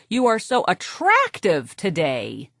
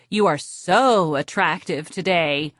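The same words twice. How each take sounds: First: Attractive drawn out and slow, the word leaned on; stress on attractive. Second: So drawn out and leaned on, attractive light; stress on so. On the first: Therapist demonstrates a man stressing attractive. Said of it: "stress the adjective". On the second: Therapist demonstrates a woman stressing so. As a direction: lean into the word so. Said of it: "Stress the modifier". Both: Shown as a demonstration.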